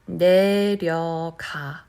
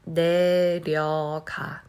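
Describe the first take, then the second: The two takes are said the same way.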